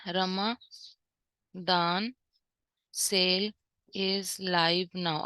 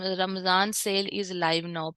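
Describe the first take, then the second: First: Very slow, each word set apart with long pauses; word-by-word dictation. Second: Slow read-out. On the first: Teacher typing the banner line for students, dictating word by word. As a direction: dictate it one word at a time as it is typed. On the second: Teacher reading the sample banner text aloud, unhurried. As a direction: read the banner line out slowly, evenly. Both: Shown as a demonstration. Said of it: "यहाँ हम लिख देते हैं".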